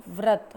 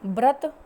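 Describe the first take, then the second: First: व्रत said correctly; correct pronunciation. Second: व्रत said as "ब्रत", louder and rising; व्रत as the wrong example, loud; wrong pronunciation. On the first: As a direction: give व्रत its proper व. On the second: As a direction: say व्रत with a ब sound. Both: Shown as a demonstration. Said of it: "व तथा ब में अंतर".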